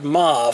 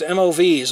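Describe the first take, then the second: First: The term is pronounced as a single word. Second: The term is spelled out as separate letters.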